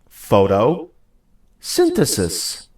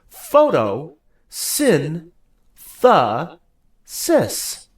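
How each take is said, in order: First: It is said faster, broken into two parts. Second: It is said slowly, broken into four parts. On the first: "Say it with me a little faster" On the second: "Say it with me"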